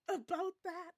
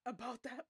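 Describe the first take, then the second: First: "About that." said higher and louder, ominous; dramatic repeat. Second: Said in the usual way. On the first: Shown as a demonstration. Re-reading Marla's telegram line, "About that." higher and louder. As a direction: lean into "About that." with mock dread.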